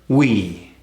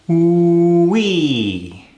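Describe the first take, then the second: First: The W sound is very short. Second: The W sound is held long. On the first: "Let's cut it even further" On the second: "let's elongate that W"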